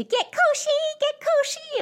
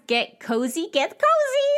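First: Very high, silly squeal; really goofy voice. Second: High, giddy squeal, rising; excited goofy voice. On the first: Cousins face to face in one chair, goofy high squeal. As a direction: squeal it out in an over-the-top goofy pitch. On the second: Cousins squeezing into one chair before presents, high goofy excitement. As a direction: imitate two giddy kids squealing. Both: Retold or imitated. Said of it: "in a really goofy voice".

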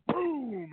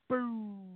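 First: Said in the usual way. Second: Higher, muffled far-off boom; distant bomb boom. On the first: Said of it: "it wasn't like it was boom. It was like". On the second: Shown as a demonstration. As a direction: imitate a faraway explosion. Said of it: "It was like".

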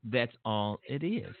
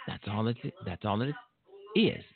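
First: Said slower with gum in mouth; chewing gum, slow and quieter; mouth full. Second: Talking with gum in mouth; chewing gum while speaking; mouth full. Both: Real, not acted. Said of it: "I have gum in my mouth".

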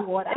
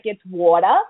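First: Mock New York "water", pitched way up; New York accent. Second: "water" said low and rising, New York style; teacher models the New York "water"; New York accent coaching. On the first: A guest repeats her taught line in a New York accent. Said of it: "a ten-minute lesson in how to speak in, in, with a New York accent". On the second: Shown as a demonstration. A coach shows the guest her New York line. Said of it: "lesson in how to speak in, in, with a New York accent".

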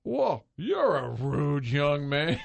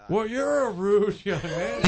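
First: Harry Caray. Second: Put-on much higher, louder, slow old broadcaster voice; Harry Caray. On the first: Retold or imitated. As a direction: stretch it out like a gruff old announcer. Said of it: "looks over at me and says". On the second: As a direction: draw it out like a gruff old announcer. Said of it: "was like".

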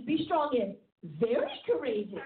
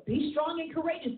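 First: "very" set off by a pause and leaned on; stress on very. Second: Said in the usual way. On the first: Shown as a demonstration. Preacher quotes the charge to Joshua, emphasizing "very". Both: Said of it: "then we start emphasizing".

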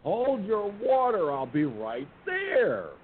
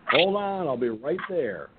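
First: Very high call that slows right down; exasperated shout at the door, drawn out; impatient holler. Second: High shouted call, then slower and calmer; hollering back at the door, half shouted; retold holler. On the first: Retold or imitated. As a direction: make them wait, irritated. Impatient reply to the knocking. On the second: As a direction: call through the bedroom door while pulling on pants. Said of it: "I hollered out".

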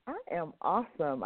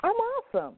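First: Said in the usual way. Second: Bursting up high with joy; excited. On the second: Real, not acted. Exuberant answer to how are you.

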